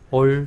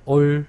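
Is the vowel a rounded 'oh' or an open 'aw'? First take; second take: rounded oh; rounded oh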